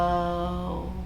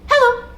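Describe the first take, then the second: First: It is said very slowly. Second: It is said very fast.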